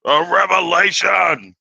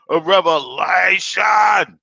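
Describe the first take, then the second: First: High, slow announcement of a revelation; drawn-out proclamation. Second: High, slower shout of revelation; shouted proclamation. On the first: Opening the video to viewers, drawn-out proclamation. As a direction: stretch it like a big reveal. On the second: Repeating the opener to viewers, full shout. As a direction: belt it out even bigger. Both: Acted.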